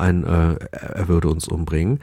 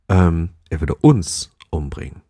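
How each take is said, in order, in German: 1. Der Satz wird neutral ohne besondere Betonung gesprochen. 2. Der Satz wird deutlich betont gesprochen. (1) "heißt das auch einfach nur" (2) "später ist die Betonung bei diesem letzten Durchlauf"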